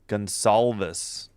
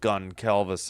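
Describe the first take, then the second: First: The middle consonant is an S sound. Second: The middle consonant is a hard K sound. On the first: The speaker calls it right. "it's a uh, S" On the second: The speaker calls it wrong. "So it's not a hard C"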